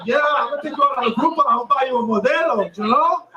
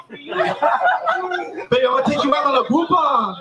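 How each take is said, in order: First: Rattled off quickly as a smug cheapskate; fast mock boyfriend. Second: Put-on slow, laughing cheapskate boyfriend line; mock cheap boyfriend. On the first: Comic mocks a man bragging to his date, fast. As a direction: blurt it out fast and pleased with yourself. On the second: Comic mocks a man wooing his date, slowly and laughing. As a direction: drag it out like a proud cheapskate. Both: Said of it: "We're saying you're really fucking sweeping her".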